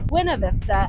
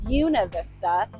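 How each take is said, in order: First: It is said the way the spelling reads. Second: It is said the way locals say it. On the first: "what looks to read Buena Vista" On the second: "why locals pronounce"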